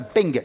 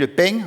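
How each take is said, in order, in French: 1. Il se termine par un son g entièrement relâché. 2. Il se termine par une nasale qui s'arrête avant tout g. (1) "on dit pas le peng" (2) "on dit le peng"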